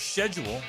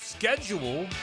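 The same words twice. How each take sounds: First: It is said in a pronunciation from elsewhere. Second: It is said in the speaker's ordinary pronunciation.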